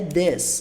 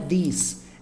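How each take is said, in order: First: The vowel sounds like a short eh. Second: The vowel sounds like a long ee. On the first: The speaker calls it right. "É this. ... como se fosse e mesmo" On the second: The speaker calls it wrong. "Não é this. ... Não tenta jogar um som de i aqui"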